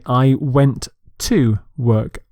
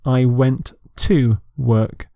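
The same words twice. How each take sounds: No difference in how they are said.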